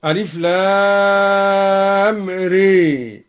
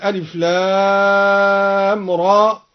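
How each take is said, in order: First: إمالة الراء; imala on ra. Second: Said in the usual way. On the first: Shown as a demonstration. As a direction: stretch ري leaning to re, very slowly. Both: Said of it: "قرأ الدوري بإمالة الراء هكذا".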